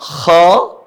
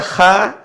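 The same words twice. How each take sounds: First: Kha said heavy, the vowel pulled toward O; thick kha. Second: Kha said with a plain, open A vowel; thin kha. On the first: Teacher shows students the correct heavy kha. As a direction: round Kha into "kho". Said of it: "tapi mirip huruf O". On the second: Teacher shows students how kha is not read. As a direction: say kha light and flat, the wrong way. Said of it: "Jadi bukan dibaca kha". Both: Shown as a demonstration.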